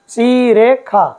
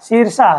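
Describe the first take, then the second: First: The middle consonant is pronounced 'kh'. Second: The middle consonant is pronounced 'sh'. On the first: It follows the Yajurveda recitation tradition. "इस श को ख उच्चारण होता है हमेशा" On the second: It is read the way it is written. "देखने में अपने को ये लग रहा है शीर्षा शब्द है"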